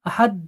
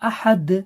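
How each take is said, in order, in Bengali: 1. ahad-এর শেষের d কেটে ফেলা হয়, কোনো ঝাঁকি ছাড়া। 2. ahad-এর শেষের d প্রতিধ্বনিময় ঝাঁকি দিয়ে ছাড়া হয়। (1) "আহাদ বলে ছাড়বেন না" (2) "কলকলা করতে হবে"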